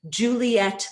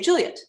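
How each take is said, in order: First: The name is said with three syllables. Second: The name is said with two syllables. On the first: The speaker calls it wrong. "Very rarely would you say" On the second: The speaker calls it right. "You'd say"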